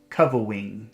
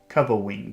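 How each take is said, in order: First: The R sound is weak and childlike. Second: The R sound is weak and childlike.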